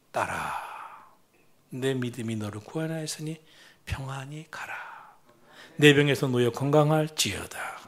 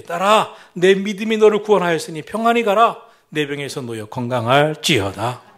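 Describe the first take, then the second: First: Tender Jesus. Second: Proclaiming Jesus. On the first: Jesus gently calls the suffering woman daughter, tender. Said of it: "따뜻한 말 한마디". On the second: Jesus declares healing to the woman, loud proclamation. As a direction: declare it over her with authority. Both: Acted.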